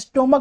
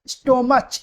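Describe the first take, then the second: First: The middle consonant is said as 'k'. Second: The middle consonant is said as 'ch'. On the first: The speaker calls it right. "स्टोमक बोलते हैं" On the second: The speaker calls it wrong. "स्टोमच नहीं बोलते हैं"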